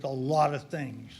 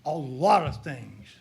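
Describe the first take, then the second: First: Said in the usual way. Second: LOT drawn out slowly, falling after it; stress on LOT. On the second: Real, not acted. Speaker hinting at his long experience to the crowd, stressing "lot". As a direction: lean slowly and heavily on "lot". Repeats phrase slowly for emphasis.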